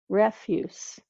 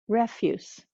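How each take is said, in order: First: The word ends with a hissing S sound. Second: The word ends with a hissing S sound.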